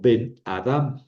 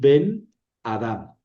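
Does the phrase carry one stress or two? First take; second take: one; two. First: One stress falls on the last word. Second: Both words carry their own stress. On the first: The speaker calls it right. "un solo acento, y el acento cae en la última palabra" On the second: The speaker calls it wrong. "yo no voy a decir Ben Adam"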